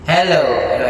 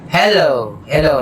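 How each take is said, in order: First: Full volume echo. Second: Said in the usual way. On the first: Shown as a demonstration. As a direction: let the echo ring on each hello. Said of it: "i-full volume natin yung echo". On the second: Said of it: "walang echo".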